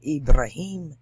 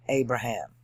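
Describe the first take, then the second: First: Ibrahim said "ib-ra-HEEM", louder; Arabic pronunciation. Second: Said in the usual way. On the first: Shown as a demonstration. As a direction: say Ibrahim with an opening "ee" and a long "heem". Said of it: "otherwise it's the same word". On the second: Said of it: "we say Abraham".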